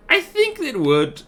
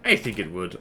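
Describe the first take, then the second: First: High, slow squeaky voice; high silly voice. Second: Said in the usual way. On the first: Pretend. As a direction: pitch way up and drag it out. Repeats line in silly voice.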